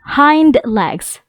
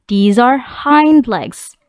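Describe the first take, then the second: First: Said in the usual way. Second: These are hind legs, each word drawn out slowly; slow classroom modelling of "hind legs"; slow, careful teacher model. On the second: Shown as a demonstration.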